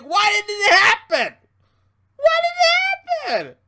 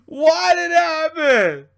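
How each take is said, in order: First: High, louder whiny mock voice; mock a whining wrestling fan, pitched up. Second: Slow, louder fake sob through the words; mock crying. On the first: Imitating disappointed fans, high whiny mock voice. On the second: Mocking disappointed fans, hammed-up fake crying. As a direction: ham up a tearful fan.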